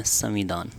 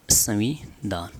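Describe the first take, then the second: First: Said in the usual way. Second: संविधान broken up as संवि, धान; slow dictation. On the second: Shown as a demonstration. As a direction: dictate संविधान slowly, piece by piece. Teacher dictates term in parts. (धीरे, टुकड़ों में लिखवाते हुए)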